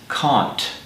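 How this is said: It is said with a British accent.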